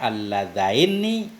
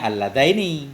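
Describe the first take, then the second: First: The n sound is held long and doubled. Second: The n sound is short and single. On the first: Some readers recite it this way. "bitasdidin nuni dengan tasdid nun" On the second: This is the original form.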